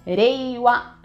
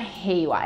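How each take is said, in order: First: The first sound is a quick tapped R. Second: The first sound is a breathy H-like sound. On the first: It names the new era. The speaker calls it right. "o R no japonês, ele tem som de rarirurero" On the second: It means peace. The speaker calls it wrong. "Não é Reiwa"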